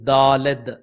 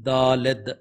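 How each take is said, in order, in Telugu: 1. ఇది హీబ్రూ పద్ధతిలో అంటారు, d తో ముగుస్తుంది. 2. ఇది హీబ్రూ పద్ధతిలో అంటారు, d తో ముగుస్తుంది.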